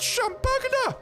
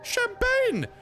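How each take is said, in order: First: The word ends with an extra 'uh' vowel. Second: The word ends with an n sound. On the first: The speaker calls it wrong. "It's not pronounced champagna!" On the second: The speaker calls it right. "It's pronounced uh, champagne!"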